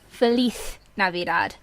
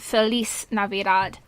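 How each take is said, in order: First: The z in Feliz is a soft th-like sound. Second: The z in Feliz is a buzzing z. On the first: It follows how Spanish speakers say it. The speaker calls it right. "almost sounding Z instead of buzzing Z" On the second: It imitates a non-Spanish speaker's reading. The speaker calls it wrong. "he spent the entire track pronouncing it"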